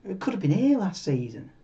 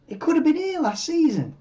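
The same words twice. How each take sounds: First: Said in the usual way. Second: Much higher swoop, falling at the end; higher, emphatic repeat. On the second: Real, not acted. Streamer recalling Ferrari's last race win, emphatic high-pitched repeat. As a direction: lift "been here" high, then drop away.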